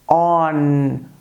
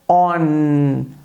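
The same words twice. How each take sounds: Both takes have the same delivery.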